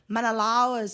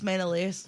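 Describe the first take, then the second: First: The name is said with an American film pronunciation. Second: The name is said with the speaker's own pronunciation. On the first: The speaker calls it wrong. "And then it's like" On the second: The speaker calls it right. "It's just Menelaus"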